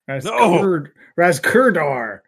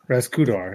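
First: The middle R is clearly pronounced after the vowel. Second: The middle R blends into the vowel and disappears. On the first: The speaker calls it right. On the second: The speaker calls it wrong. "That really is just my southern accent canceling out that R"

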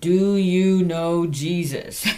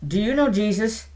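First: It is said slowly and carefully. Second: It is said at a normal speed.

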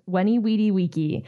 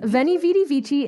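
First: It uses the classical, real Latin pronunciation. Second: It uses an anglicized, non-classical Latin pronunciation. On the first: The speaker calls it right. "it is pronounced" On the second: The speaker calls it wrong. "is not how it's pronounced in real Latin"

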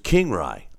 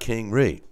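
First: The second syllable rhymes with 'eye'. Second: The second syllable rhymes with 'see'. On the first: The speaker calls it right. "so it's King Rye. I got you" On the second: The speaker calls it wrong. "Not King Ree"

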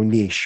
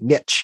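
First: The word is said in a non-American way. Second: The word is said the American way, rhyming with 'rich'.

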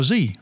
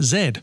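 First: The letter is said the American way, zee. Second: The letter is said the British way, zed.

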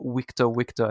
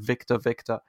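First: Victor starts with a w sound. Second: Victor starts with a v sound. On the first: "he could never say the letter V and instead had to go" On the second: "instead of"

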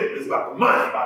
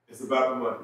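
First: It is said with strong emphasis. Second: It is said plainly, without extra emphasis.

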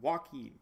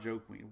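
First: The name is said as Joaquin. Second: The name sounds like the words Joe Queen. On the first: The speaker calls it right. "How do we pronounce it? Joaquin" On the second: The speaker calls it wrong. "I remember butchering the name. Not Joe Queen"

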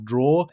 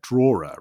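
First: The final 'er' is silent, one syllable only. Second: The final 'er' is pronounced as a separate syllable. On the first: The speaker calls it right. "the ER at the end there is completely silent" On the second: The speaker calls it wrong. "very tempted to kind of pronounce that ER at the end"

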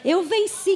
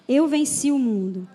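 First: It is said cheerfully, with a smile. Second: It is said in a somber, serious tone.

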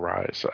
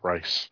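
First: The name is said like 'rise'. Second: The name is said like 'rice'. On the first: "Or Rise" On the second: "not Rice"

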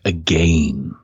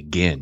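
First: Again is said with a British pronunciation. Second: Again is said with an American pronunciation. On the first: The speaker calls it right. "in Britain? ... You say again" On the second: The speaker calls it wrong. "You don't say again"

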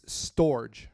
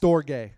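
First: It ends with a soft 'j' sound, like storage. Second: It ends with a 'gay' sound, stor-gay. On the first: The speaker calls it wrong. "I pronounced it wrong. I thought it was like storage" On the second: The speaker calls it right. "it's like S-T-O-R-E-G-A-Y is how you pronounce it"

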